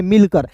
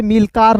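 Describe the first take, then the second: First: Said in the usual way. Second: मिलकार with a long aa in the last syllable; wrong pronunciation. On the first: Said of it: "इसे क्या पढ़ेंगे?". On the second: Shown as a demonstration. Teacher warns learners off a misreading, मिलकार with long final aa. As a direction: lengthen the final vowel of मिलकार to aa. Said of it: "मिलकार नहीं पढ़ेंगे".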